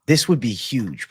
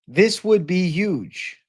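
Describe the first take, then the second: First: Said in the usual way. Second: Slow, high, leaning on would; This would be huge, drawn out with would pushed; hyped stress on would. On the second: Shown as a demonstration. Streamer hypes Eddie Hall vs Finch match, stretching would.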